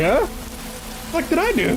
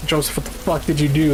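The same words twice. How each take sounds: First: Squeaky high, baffled huh what; shocked disbelief. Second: Said in the usual way. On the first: Retold or imitated. Accused at the bar, he squeaks back in shocked disbelief. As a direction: voice jumps way up in disbelief. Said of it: "And I was like". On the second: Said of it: "and he's like".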